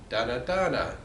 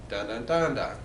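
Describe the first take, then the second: The two takes are said the same way.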